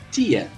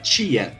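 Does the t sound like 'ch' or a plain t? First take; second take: plain t; ch. First: The t is said as plain t. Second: The t is said like 'ch'.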